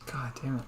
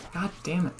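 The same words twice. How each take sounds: First: Whispered "God damn it" with "damn" stressed; muttered frustration, no voice; whispered curse. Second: Higher, falling "God damn it" with "damn" hit; exasperated at a bad move; frustrated curse. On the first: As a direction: hiss "God damn it" under the breath. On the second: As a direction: let "God damn it" out in real annoyance. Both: Real, not acted. Annoyed at the game, twice.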